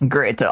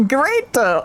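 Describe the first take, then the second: First: Said in the usual way. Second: Laughing. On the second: Real, not acted. Still laughing at the line.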